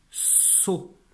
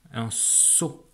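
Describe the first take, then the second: First: Whispered word. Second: Said in the usual way. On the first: Shown as a demonstration. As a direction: whisper the word saut softly, no voice. (mot saut chuchoté) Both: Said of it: "j'entends de sons dans le mot".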